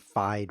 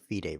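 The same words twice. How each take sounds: First: The name is pronounced just as it is spelled. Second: The name is not pronounced as it is spelled. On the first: The speaker calls it right. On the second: The speaker calls it wrong.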